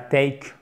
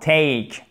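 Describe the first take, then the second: First: The vowel is said with a weak sound. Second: The vowel is said with a strong sound. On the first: The speaker calls it wrong. "et pas take" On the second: The speaker calls it right. "C'est un son fort"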